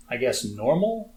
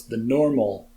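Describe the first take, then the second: First: Said in the usual way. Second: "normal" set apart in mock air quotes; a sceptical "normal" with a wry lift; air-quoted word. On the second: Shown as a demonstration. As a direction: say "normal" as if it sits in scare quotes. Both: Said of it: "I'm doing air quotes".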